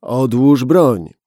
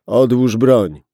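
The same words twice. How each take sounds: First: Slow, loud "Odłóż broń", stress on "broń"; more determined. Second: Loud command, stress on "broń"; ordered. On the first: Gunman repeating his order with hard determination, slow and loud. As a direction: spell it out, final warning. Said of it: "z jeszcze większą determinacją w głosie". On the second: Gunman ordering the policeman to drop the gun, loud command. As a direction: bark the order. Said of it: "rozkazał mężczyzna". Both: Acted.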